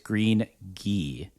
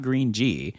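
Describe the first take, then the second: First: The last word begins with a hard 'g' sound. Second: The last word begins with a soft 'j' sound. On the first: The speaker calls it right. "it's Green Ghee" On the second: The speaker calls it wrong. "apparently it's not Green G"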